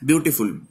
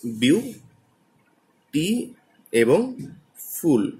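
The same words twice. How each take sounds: First: Said in the usual way. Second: বিউ, টি, ফুল each said alone with long pauses between; teacher demonstrating বিউ... টি... ফুল as three separate parts; split into syllables. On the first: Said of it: "beautiful শব্দটাকে আমরা তিনটে পার্টে". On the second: Shown as a demonstration. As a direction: pronounce বিউ, টি এবং ফুল slowly, one part at a time. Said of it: "তিনটে পার্টে উচ্চারণ করি".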